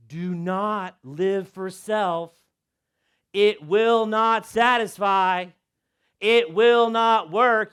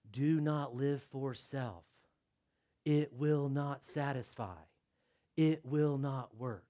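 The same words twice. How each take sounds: First: Slow, louder, hammered words; slow emphatic proclamation. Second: Slow, soft and lower; solemn hush. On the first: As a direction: proclaim it to the room. Repeated loud and slow. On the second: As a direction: read it like a quiet warning. Hushed imagined warning label. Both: Shown as a demonstration.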